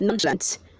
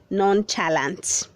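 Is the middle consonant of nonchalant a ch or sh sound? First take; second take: sh; ch. First: The middle consonant is a soft sh sound. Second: The middle consonant is a hard ch sound. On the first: The speaker calls it right. "The C H is making the sound of S H" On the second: The speaker calls it wrong. "Don't say"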